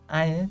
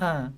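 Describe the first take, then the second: First: The word is said with a full 'ai' vowel. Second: The word is said as a short 'a' vowel. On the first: "tidak dibaca I" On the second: "tapi A"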